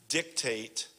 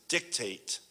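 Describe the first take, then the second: Both takes have the same delivery.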